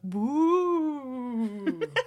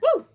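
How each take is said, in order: First: It is a spooky, ghostly hoot. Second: It is an enthusiastic, happy cheer.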